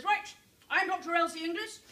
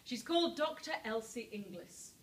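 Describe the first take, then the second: First: Put-on louder, higher, confident self-introduction, no accent; march in and state your name; a doctor introducing herself to the authorities, loud and self-assured; brisk doctor announcing herself. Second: Said in the usual way. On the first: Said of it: "goes along to the authorities ... and says".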